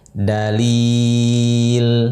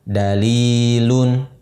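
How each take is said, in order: First: Long four-count vowel, stopping on the consonant. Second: Short two-count vowel, ending with -un. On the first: The reading stops on this word. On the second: The word is read joined to what follows.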